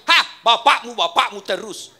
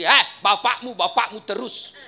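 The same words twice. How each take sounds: First: Much louder sing-song whine; sing-song nagging wife. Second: Loud whiny wife complaint; nagging wife. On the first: Wife nags husband over his father, loud sing-song. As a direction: chant the complaint mockingly. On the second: Wife grumbles to husband about his father, loud and whiny. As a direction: whine it like a fed-up wife. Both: Retold or imitated.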